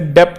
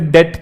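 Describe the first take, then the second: First: A p sound is heard before the t. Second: No p sound is heard before the t. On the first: The speaker calls it wrong. "इसे डेप्ट नहीं कहते" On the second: The speaker calls it right. "इसे डेट कहते हैं"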